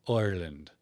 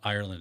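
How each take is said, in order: First: The first vowel is a soft 'oi' sound. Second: The first vowel is a plain 'eye' sound. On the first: "I's in Irish accents are like oi, but like like a soft oi" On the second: "it's not Ireland"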